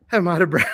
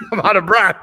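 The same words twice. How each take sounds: First: Breathless, panting the words out; out of breath. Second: Louder, laughing through the breathlessness; laughing out of breath. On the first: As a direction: say it still winded from the stairs. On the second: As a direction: laugh it off while still winded. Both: Real, not acted. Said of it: "I just ran up these stairs".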